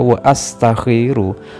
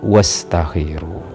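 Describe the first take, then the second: First: A glottal stop separates wa from astakhiru. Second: Wa runs straight into stakhiru without a stop. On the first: The speaker calls it right. "tetap dibaca wa astakhiru" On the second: The speaker calls it wrong. "bukan wastakhiru ya"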